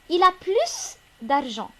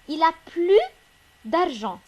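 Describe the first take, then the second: First: The final S of plus is pronounced. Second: The final S of plus is silent. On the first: He has more money. The speaker calls it right. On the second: He no longer has money. The speaker calls it wrong.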